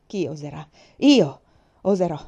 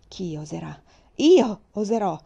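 First: From steady to shouted defiance; building defiance. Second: Shouted back. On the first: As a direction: question held level, then IO bursts out loud. She repeats her defiant motto. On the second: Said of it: "gridai a mia volta". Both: Acted.

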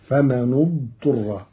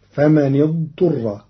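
First: فمن اضطر with a damma joining the nūn. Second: فمن اضطر with a kasra joining the nūn. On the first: Teacher demonstrates Qalun's reading, damma on the nūn. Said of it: "فتصير هكذا". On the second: Teacher recites the usual reading, kasra on the nūn. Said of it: "قرأ قالون كلمتي". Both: Shown as a demonstration.

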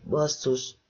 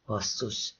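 First: Said in the usual way. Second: A soft, hissed swear under the breath; hissed curse. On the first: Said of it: "A hangja elmosódott volt". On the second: Acted. Mia hisses a curse as the danger dawns on her, soft and sharp. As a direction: spit it out low and quiet, through the teeth. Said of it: "sziszegte Mia".

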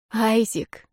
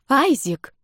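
First: Breathy moan. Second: High startled cry of a name; indignant exclaim. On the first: Moaning his name in passion. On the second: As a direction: cry his name in shock. Outraged as he strips her. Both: A narrator's reading.

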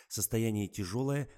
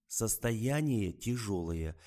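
First: Said in the usual way. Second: Состояние тяжёлое spelled out slowly, every syllable weighted; slow it down as if to a fool; Состояние тяжёлое dragged out, heavy stress on Состояние; stressed repeat. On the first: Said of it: "Вы не поняли. Состояние тяжёлое". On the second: Acted. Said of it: "Вы не поняли".

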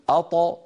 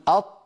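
First: أط with a bouncing release; qalqala bounce. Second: أط closed, no release; stopped taa. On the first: Teacher demonstrating qalqala on taa. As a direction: let أط echo. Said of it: "يقول". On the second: Teacher contrasting a closed taa. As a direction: shut أط. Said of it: "بدلًا من أن يقول". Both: Shown as a demonstration.

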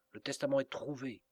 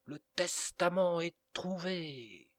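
First: Said in the usual way. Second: High loud shout, slow, stretching out testament; the priest shouting the news louder to reach Walberg; as loud as he can. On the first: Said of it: "répéta". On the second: A narrator's reading. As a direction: call it out at the top of his voice. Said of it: "d'une voix aussi élevée qu'il put".

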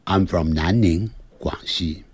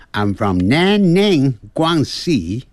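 First: 南宁，广西 in native Mandarin tones; standard Mandarin names. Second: Chinese place names in a foreigner's accent; higher, slow, foreign-accented 南宁，广西. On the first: Teacher models standard Chinese pronunciation of 南宁，广西. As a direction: say 南宁，广西 as a Chinese speaker would. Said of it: "直接讲标准的声音". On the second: Teacher mimics how foreigners say 南宁，广西, foreign accent. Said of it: "如果要学这个外国腔". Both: Shown as a demonstration.

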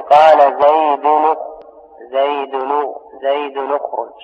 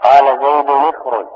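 First: زيد said as zaydun, with a damma linking it into اخرج (zaydunukhruj); slow, careful demo of زيد اخرج with the nun voweled u; tanween with damma. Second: زيد said as zaydin, with a kasra linking it into اخرج; tanween with kasra. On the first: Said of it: "بضم". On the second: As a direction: say قال زيد اخرج with the nun of زيد voweled i. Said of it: "بالكسر". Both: Shown as a demonstration.

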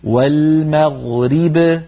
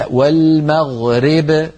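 First: والمغرب with a full i under the ra, very slowly; slow careful والمغرب with a clear ri; correct full kasra. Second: والمغرب with the ra tilted toward e, slowly; slow walmaɣreb with a leaning ra; wrong imala. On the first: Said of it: "بكسر الراء كسرا كاملا". (والمغرب بكسر الراء كسرا كاملا) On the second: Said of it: "هذا لا يصح". (والمغرب براء ممالة، نطق خاطئ) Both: Shown as a demonstration.

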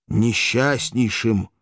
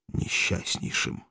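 First: Несчастнейшим voiced and slow, falling at the end; voiced lament. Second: Slow, breathless whisper of несчастнейшим; whispered despair. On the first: Spartacus repeats his misery to Valeria, slow voiced lament. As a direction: give несчастнейшим full voice, slow and mournful. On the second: Acted. Spartacus tells Valeria he will be miserable, whispered. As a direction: breathe несчастнейшим out slowly, almost voiceless. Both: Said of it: "дрожащим голосом".

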